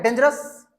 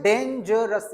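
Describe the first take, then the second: First: Said in the usual way. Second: डेंजरस said as three distinct syllables; teacher separating each syllable of डेंजरस; split into three parts. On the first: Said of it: "एक बार में पढ़ते रहना". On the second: Shown as a demonstration. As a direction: break डेंजरस into three beats for a learner. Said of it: "तीन भागों में पढ़ देना".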